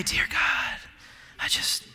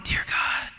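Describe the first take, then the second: First: Breathy hushed prayer voice; mock solemn prayer opening, hushed; mock pious prayer. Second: Mock pious prayer. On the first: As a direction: put on a reverent hush. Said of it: "inflect our voice to act passionate". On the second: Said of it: "if that's why you go". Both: Shown as a demonstration.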